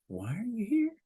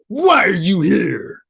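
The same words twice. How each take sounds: First: It is said in a calm, curious tone. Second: It is said in an aggressive tone.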